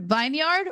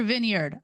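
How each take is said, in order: First: "vineyard" as vine-yard, high and rising; long-i vineyard. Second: "vineyard" as VIN-yerd, falling; short-i vineyard. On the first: Reader weighing two pronunciations, "vineyard" as rising vine-yard. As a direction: offer "vineyard" with a long i, as a question. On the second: Reader weighing two pronunciations, "vineyard" as falling VIN-yerd. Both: Real, not acted. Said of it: "I don't know".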